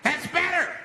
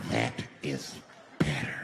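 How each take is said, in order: First: High, raised self-satisfied call; high commanding voice. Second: Very low, drawn-out repeat; low menacing voice. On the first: Man terrorizing the bus to hushed passengers, high call. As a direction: announce it high over the crowd. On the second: Man terrorizing the bus to hushed passengers, low menace. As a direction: drop it deep and deliberate. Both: Retold or imitated.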